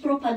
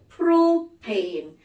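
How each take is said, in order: First: The word ends with an 'ah' vowel: pro-pan. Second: The word ends with an 'ay' vowel: pro-pane. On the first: The speaker calls it wrong. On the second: The speaker calls it right.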